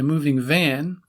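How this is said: The stress falls on the second word. The van itself is moving. "the second word of the pair is usually stressed"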